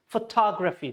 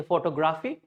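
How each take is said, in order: First: Photography as fuh-TOG-ruh-fee; photography with weak vowels round TOG; stressed TOG in photography. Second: Photography as photo-GRAH-fee; photography with a full "grah"; wrong PHOTOGRAPHY. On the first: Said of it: "So tog should be clear". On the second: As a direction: break photography after "photo". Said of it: "People say photography". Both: Shown as a demonstration.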